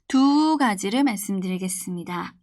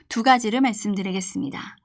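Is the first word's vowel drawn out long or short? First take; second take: long; short. First: The vowel of the first word is drawn out. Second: The vowel of the first word is short. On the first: The speaker calls it right. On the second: The speaker calls it wrong.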